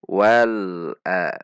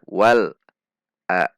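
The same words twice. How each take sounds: First: The l sound has a medium length. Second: The l sound is cut off abruptly. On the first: The speaker calls it right. "di antara keduanya" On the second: The speaker calls it wrong.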